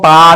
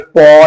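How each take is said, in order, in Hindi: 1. स्वर सीधा खुला 'ah' है। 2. स्वर गोल 'aw' है। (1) "इसको हम पा नहीं पढ़ेंगे" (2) "पौ नहीं पढ़ेंगे"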